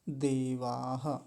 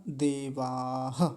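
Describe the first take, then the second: No difference in how they are said.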